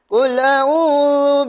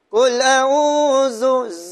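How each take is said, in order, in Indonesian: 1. Konsonan sebelum vokal akhir adalah th bersuara. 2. Konsonan sebelum vokal akhir adalah z. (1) "huruf zal" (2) "bila zu dia huruf zai"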